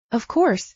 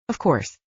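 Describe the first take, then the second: First: A quick high start, cut off short; startled, broken off. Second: Quiet realization. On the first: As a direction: blurt it then stop dead, caught out. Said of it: "she started and broke off, startled". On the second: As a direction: lower and softer, admitting it to herself. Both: A narrator's reading.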